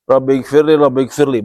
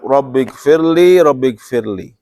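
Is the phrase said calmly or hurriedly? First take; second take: hurried; calm. First: It is said quickly and hurriedly. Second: It is said slowly and calmly. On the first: The prayer is recited while still moving, without stillness. The speaker calls it wrong. "bukan dalam bergerak. Allahu Akbar. Rabbighfirli Rabbighfirli, bukan begitu" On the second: The prayer is recited in a state of stillness. The speaker calls it right. "Tapi dalam keadaan tenang"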